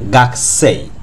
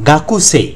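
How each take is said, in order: First: The 'u' after the 'k' is dropped. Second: The 'u' after the 'k' is clearly pronounced. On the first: The speaker calls it right. "কিন্তু উচ্চারণের বেলায় বলবো গাকসেই" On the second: The speaker calls it wrong. "কিন্তু গাকুসেই না বলে আমরা বলবো গাকসেই"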